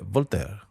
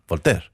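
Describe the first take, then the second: First: It is said in a polite, courteous tone. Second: It is said in an impatient, pushy tone. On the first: The station is being announced courteously. "como son educados los franceses" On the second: Get off the train now. "así como, bájate"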